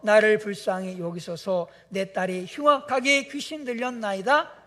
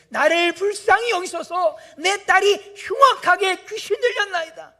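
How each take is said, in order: First: Said in the usual way. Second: Loud, high crying-out plea; mother crying out for her sick daughter; desperate shout. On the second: Retold or imitated. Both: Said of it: "소리질러 이르되".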